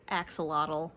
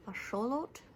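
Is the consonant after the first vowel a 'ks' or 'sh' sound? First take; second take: ks; sh. First: The word is said with a 'ks' sound. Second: The word is said with a 'sh' sound. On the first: The speaker calls it wrong. "axolotl is not how you pronounce it" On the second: The speaker calls it right. "something like that"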